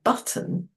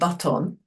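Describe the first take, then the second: First: The second syllable's vowel is swallowed. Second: The second syllable's vowel is fully pronounced. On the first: The speaker calls it right. "that's when we usually swallow the second one" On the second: The speaker calls it wrong. "We don't go parrot or button"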